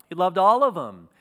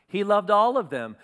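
First: Said out loud and firm; loud declaration. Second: All said a little higher, full weight on it; stress on all. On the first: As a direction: proclaim it loud to the church. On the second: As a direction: lean hard on the word all. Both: Acted.

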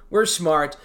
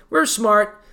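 First: Lower, softer repeat of the boast; low quiet echo. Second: Said in the usual way. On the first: Acted. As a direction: mutter it back to yourself.

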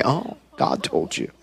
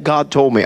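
First: Low, much softer skeptical scoff; dry disbelieving murmur; sceptical. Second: Said in the usual way. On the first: Retold or imitated. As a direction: drop it low and doubtful, like you don't buy it. Doctor doubts prophecy.

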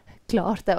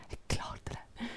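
First: Said in the usual way. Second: Hushed whisper to herself. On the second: Retold or imitated. Artist quietly telling herself she made it, whispered. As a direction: breathe it out to yourself. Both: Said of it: "Drikk en kopp kaffe og bare".

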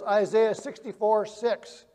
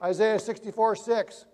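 First: Slowed down so they can write it; slow dictation. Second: Said in the usual way. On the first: Shown as a demonstration. Preacher dictating a verse reference to the congregation, slowly. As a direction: spell the reference out slowly for note-takers. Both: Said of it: "write down this verse".

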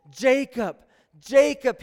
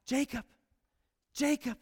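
First: Loud, ringing call of a name. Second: Soft, intimate repeat of the name; quiet tender calling. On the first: Acted. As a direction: call his name across the dark. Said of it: "he called". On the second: Shown as a demonstration. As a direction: say his name gently, close by. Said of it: "the Lord calls out Jacob twice".

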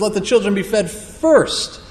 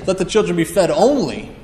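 First: "first" weighted as the key word in place of "only"; stress on first. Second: "only" weighted as the key word, falling; stress on only. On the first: Preacher giving the right reading, stressing "first". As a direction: hit "first" to correct the reading. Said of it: "He says". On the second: Preacher showing the misreading, stressing "only". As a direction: lean on "only" as the wrong reading. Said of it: "Not, doesn't say". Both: Shown as a demonstration.

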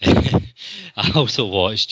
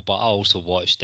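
First: Drawn out slowly through a laugh; slow laughing repeat. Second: Said in the usual way. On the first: Acted. Host admits the film, laughing slowly. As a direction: stretch it out, chuckling at the confession.

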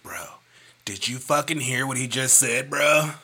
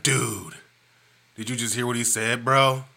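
First: Loud bro-style impression of a friend; wrong Wesley voice. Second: Laid-back dude voice, slightly louder; dude guy Wesley. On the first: Friend mimicked the wrong way, as a loud bro. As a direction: ham up a bro guy. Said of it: "That's not how he talk". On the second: Retold or imitated. Friend imitated right, as a laid-back dude. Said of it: "He's more of a dude guy".

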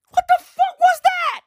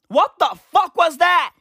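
First: Very high, loud squeal of bewilderment; hysterical disbelief. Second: Higher, louder acted bewilderment; acted shocked question; baffled disbelief. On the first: Acted. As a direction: shoot way up into a squeaky mock outburst. Same quote again, far more frantic. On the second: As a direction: exclaim it like a stunned old-timer looking back. Imagined octogenarians looking back, first take.

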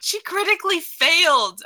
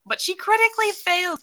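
First: Higher, louder dismay. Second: Much higher dismayed wail; exaggerated dismay. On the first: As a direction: wail at the bad roll. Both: Real, not acted. Player reacts to bad roll.

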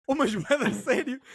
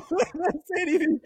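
First: Slow, drawn out, leaning on "sério" gravely; dead serious emphasis. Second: Cracking up through "Bué da sério", slow and higher; laughing repeat. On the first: Stressing to his friend the stranger meant it, slow deadpan. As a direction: stretch "mas bué da sério" slowly, deadpan. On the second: Repeating it to his friend, laughing. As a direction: say it again, laughing at the memory. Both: Real, not acted.

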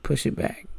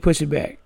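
First: Softer, unvoiced half-whisper; hushed aside. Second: Said in the usual way. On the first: Kid sneakily nudging grandma's glass table, whispered under the breath. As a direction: breathe it out quietly, almost whispered.

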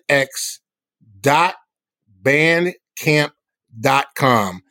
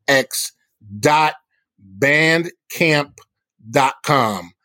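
Both takes have the same delivery.

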